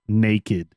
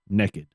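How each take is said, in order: First: The first vowel sounds like 'nake', 'naykid'. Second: The first vowel sounds like 'neck', 'nekkid'. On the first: Local people do not say it this way. "not naked" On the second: This is how many local people say it. "I know way too many people from around here that say naked"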